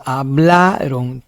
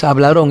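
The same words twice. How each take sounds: First: "hablaron" slowly, BLA drawn out; stress on BLA. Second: "hablaron" wrongly stressed on RON; stress on last syllable. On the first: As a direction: hold the middle BLA in "hablaron". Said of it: "es hablaron". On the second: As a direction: throw the accent onto RON in "hablaron". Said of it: "no es hablaron". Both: Shown as a demonstration.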